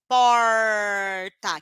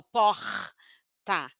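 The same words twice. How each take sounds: First: PORTA with a long, loud curled R; retroflex R. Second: PORTA slowly with a long throaty H-like R; guttural R. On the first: Teacher showing the sound pupils don't produce, retroflex R. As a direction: stretch the curled-tongue R in PORTA. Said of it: "é um som que eles não têm". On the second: Teacher contrasting the Rio pupils' sound, guttural R. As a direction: scrape the R, then release the TA. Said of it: "Eu nem produzo". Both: Shown as a demonstration.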